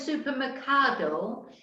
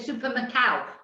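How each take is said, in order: First: The ending is said with a clear d sound. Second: The ending is said without the d sound. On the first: "instead of ado" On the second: "they say ow"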